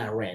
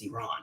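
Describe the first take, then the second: First: Iran is said with an American accent. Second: Iran is said without an American accent. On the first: The speaker calls it wrong. "I keep saying Iran. That's that's just the real American accent" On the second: The speaker calls it right. "but it's Iran"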